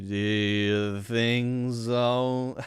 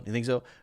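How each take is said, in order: First: It is spoken slowly with each word separate. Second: It is spoken quickly with the words blended. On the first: "If you really slow down what I just said" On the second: "having them blended together and spoken quickly"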